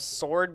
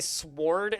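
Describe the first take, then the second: First: The word is said in the standard way. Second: The word is said in an unusual, funny way. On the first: The speaker calls it right. "I know it's not how you pronounce the word sword" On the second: The speaker calls it wrong. "I say sword instead of sword because I think it sounds funny"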